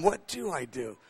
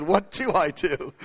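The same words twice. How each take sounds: First: Quiet, much softer to himself; soft musing. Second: Drawn-out wondering repeat; slow, puzzled echo. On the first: Pastor musing to himself in the van, quietly. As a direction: mull it over under his breath. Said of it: "haven't been asked that question in a long time". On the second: Pastor echoing the Knesset member's question, slow and puzzled. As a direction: slowly turn the question over. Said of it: "I said". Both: Retold or imitated.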